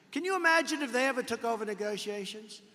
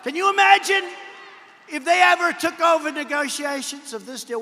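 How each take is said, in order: First: Said in the usual way. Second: Loud, high, emphatic Can you imagine; rally shout. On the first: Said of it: "repeated rhetorical line, second take". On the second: Real, not acted. Speaker to rally crowd, loud and high emphasis. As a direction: belt it to the crowd, stressing imagine. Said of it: "repeated rhetorical line, first take".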